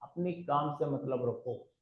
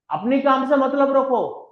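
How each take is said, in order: First: Repeated much softer and slower; softer and slower, letting the advice sink in; soft, slow version. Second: Higher and louder, hammering the point home; loud emphatic version. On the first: Speaker calmly tells the audience to mind their own business, said softly and slowly. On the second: Speaker drives the same advice home to the audience, loud and high. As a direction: raise the voice and push it out. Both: Shown as a demonstration. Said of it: "Mind your own business".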